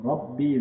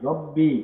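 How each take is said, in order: Both takes have the same delivery.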